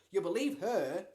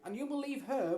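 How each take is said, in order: First: Loud, resentful bitterness on believe; bitterly. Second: Pleading. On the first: Boy resenting his mother trusting his stepsister, bitter. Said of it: "Lloyd said bitterly". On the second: Boy pleading with mother. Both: A narrator's reading.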